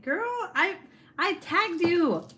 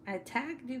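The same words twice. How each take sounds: First: High, loud and drawn out with delight; excited. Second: Said in the usual way. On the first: Real, not acted. Streamer to friend on her live, high excited gush.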